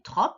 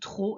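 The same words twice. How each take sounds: First: A final P sound is heard at the end. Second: No P sound is heard at the end. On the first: The speaker calls it wrong. "attention à ne pas le prononcer trop" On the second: The speaker calls it right. "le P, il est muet"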